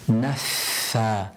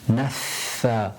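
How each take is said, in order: First: The f has an audible burst of air. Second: The same.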